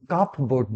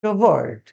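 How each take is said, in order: First: কাপ বোর্ড as two words, p sounded; wrong pronunciation. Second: কাবার্ড as one word, silent p; correct pronunciation. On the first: Teacher rejecting a common mistake, wrong pronunciation. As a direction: split কাপ বোর্ড, lower and softer. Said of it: "কাপ বোর্ড নয়". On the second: Teacher showing students the answer, correct pronunciation. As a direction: run কাবার্ড together, no p. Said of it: "সঠিক উচ্চারণ হচ্ছে কি?". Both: Shown as a demonstration.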